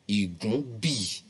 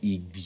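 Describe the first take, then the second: First: The g and b parts are said separately. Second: The g and b merge into one word. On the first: It keeps the original, understandable meaning. "pronouncing it separately" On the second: It is the modern form whose meaning has been lost. "but we call it igbi now"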